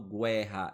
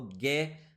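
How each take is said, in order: First: "guerra" as "gwerra", U clearly heard; sounded U. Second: "guerra" with a hard G straight into the E; silent U. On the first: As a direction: put a w sound after the G in "guerra". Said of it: "eu não falo guerra". ("guerra" pronunciando o U: "güerra") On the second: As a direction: stress the "gue" of "guerra", no w sound. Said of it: "eu falo guerra". ("guerra" sem pronunciar o U, forte no "gué") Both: Shown as a demonstration.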